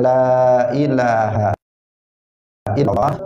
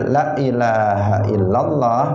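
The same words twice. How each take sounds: First: The vowel in 'la' is held long. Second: The vowel in 'la' is cut short. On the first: Nothing is rightly worshipped except God. The speaker calls it right. "kalau dibaca panjang" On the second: Something is truly worshipped besides God. The speaker calls it wrong. "Jadi la-nya dibuat pendek"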